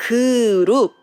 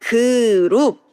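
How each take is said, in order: First: Group in plain English sound; English pronunciation. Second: Group said the Korean way as ku-rup, with an extra vowel. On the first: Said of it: "So it's English group". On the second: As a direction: break group into two Korean syllables. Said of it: "we say". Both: Shown as a demonstration.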